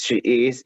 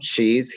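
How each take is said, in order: First: Both words are said separately and in full. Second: The words merge into one short syllable. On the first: "sin contracción" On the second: "con contracción"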